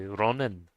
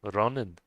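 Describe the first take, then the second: First: The first sound is a clear R. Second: The first sound is a clear R.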